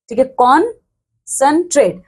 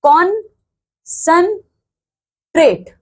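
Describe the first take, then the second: First: Said in the usual way. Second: कॉन्सेंट्रेट stretched out slowly and higher, each syllable apart; slow syllable-by-syllable demo. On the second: Shown as a demonstration. Teacher to students counting vowel sounds, slow higher sounding out. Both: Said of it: "चलो देख लेते हैं".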